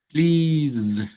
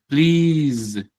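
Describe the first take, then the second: No difference in how they are said.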